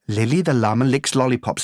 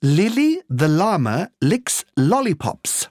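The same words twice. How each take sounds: First: The phrase is said at a fast pace. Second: The phrase is said at a slow pace.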